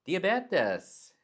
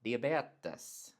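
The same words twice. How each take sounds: First: Diabetes jumped much higher, louder, falling; overdone "dee-a-BEH-tes", tone too high; wrong Swedish tone. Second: Diabetes as Swedish "dee-a-BEH-tes"; the Swedish diabetes with its own tone. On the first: Retold or imitated. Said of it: "I would say diabetes". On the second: Shown as a demonstration. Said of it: "but they say".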